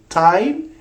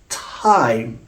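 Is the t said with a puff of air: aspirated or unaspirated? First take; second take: unaspirated; aspirated. First: The t is said without a puff of air. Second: The t is said with a puff of air. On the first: The speaker calls it wrong. "instead of saying time" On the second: The speaker calls it right. "it's time"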